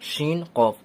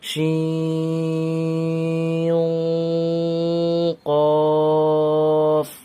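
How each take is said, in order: First: The n sound is short and plain. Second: The n sound is drawn out and nasal.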